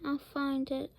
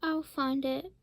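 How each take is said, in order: First: Said in the usual way. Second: A slightly raised, rising cry; mild cry. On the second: Acted. Holden calling after the eagle, mild cry. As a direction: call it out with a hint of resolve. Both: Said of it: "cried Holden".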